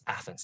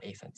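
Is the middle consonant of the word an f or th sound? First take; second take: th; f. First: The middle consonant is a th sound. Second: The middle consonant is an f sound. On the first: The speaker calls it right. "it's Athens" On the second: The speaker calls it wrong. "not Athens"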